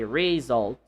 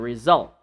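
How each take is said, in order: First: The stress is on the first syllable. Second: The stress is on the second syllable. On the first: The speaker calls it wrong. "you don't say result" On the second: The speaker calls it right. "you say result"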